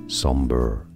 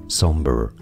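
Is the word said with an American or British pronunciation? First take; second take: American; American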